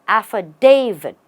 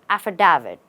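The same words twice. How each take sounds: First: The stress is on the third syllable. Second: The stress is not on the third syllable. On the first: The speaker calls it right. "the right way is to stress on the day" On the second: The speaker calls it wrong. "Mostly people say"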